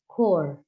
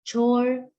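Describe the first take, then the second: First: The word starts with a k sound. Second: The word starts with a ch sound.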